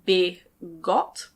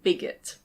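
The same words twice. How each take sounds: First: The word is said the way it is spelled. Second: The word is said in its usual way. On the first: The speaker calls it wrong. "it looks like bigot" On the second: The speaker calls it right. "but we pronounce it bigot"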